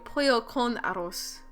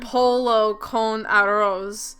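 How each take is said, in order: First: The phrase is pronounced in a Spanish-style way. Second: The phrase is pronounced in an English-style way. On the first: The speaker calls it right. "should be a" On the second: The speaker calls it wrong. "I'm not the kind of person who says, like"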